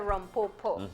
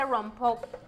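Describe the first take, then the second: First: The word ends with an 'o' vowel sound. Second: The word ends with an 'e' vowel sound. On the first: "and some say rompopo" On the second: "Some people say rompope"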